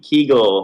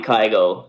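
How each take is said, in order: First: The name is said with Spanish pronunciation. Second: The name is said with English pronunciation. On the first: "Spanish, you know, countries say something like ki- Kigo" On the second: "the English would be Kygo"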